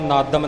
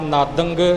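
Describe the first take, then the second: First: The word ends with a full m sound. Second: The word ends with a full ng sound. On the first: "ਇਹ ਨਾਦਨ ਜਾਂ ਨਾਦੰਗ ਜਾਂ ਨਾਦਮ ਨਹੀਂ ਬਣੇਗਾ" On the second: "ਇਹ ਨਾਦਨ ਜਾਂ ਨਾਦੰਗ ਜਾਂ ਨਾਦਮ ਨਹੀਂ ਬਣੇਗਾ"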